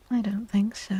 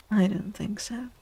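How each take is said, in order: Both takes have the same delivery.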